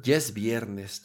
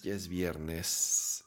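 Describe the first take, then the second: First: Said in the usual way. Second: Slow, softer, drowsy repeat; drifting off to sleep; nodding off. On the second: Real, not acted. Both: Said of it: "me estoy quedando dormido también".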